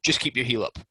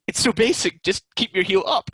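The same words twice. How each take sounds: First: Said in the usual way. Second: High, loud, fed-up plea to keep the heel up; exasperated instruction. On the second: Retold or imitated. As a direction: spell it out in disbelief at how simple it is. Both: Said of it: "And I was like".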